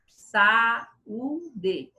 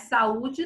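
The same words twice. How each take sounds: First: Saúde split slowly into sa, u, de; separated vowels. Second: Said in the usual way. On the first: Shown as a demonstration. Teacher contrasting it with saudade, vowels separated. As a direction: clear gaps between the syllables of Saúde. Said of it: "Elas são pronunciadas separadas". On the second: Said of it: "não".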